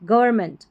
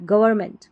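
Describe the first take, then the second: Both takes have the same delivery.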